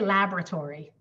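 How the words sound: It is said with an American pronunciation. "We say laboratory"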